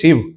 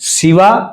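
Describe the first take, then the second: First: The name ends on the consonant, no final vowel. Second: The name ends with a final 'a' vowel. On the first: It names the god himself. The speaker calls it right. "ભગવાનનું નામ છે શિવ" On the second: It names the goddess, not the god. The speaker calls it wrong. "શિવા એમાં જગદંબાનું નામ છે"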